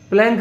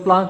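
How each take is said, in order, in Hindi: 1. स्वर आगे की ओर झुका हुआ 'ae' है। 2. स्वर लंबा खुला 'aa' है। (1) "प्लैंक भी बोलते हैं कुछ लोग" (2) "आप केवल प्लांक भी बोल सकते हैं"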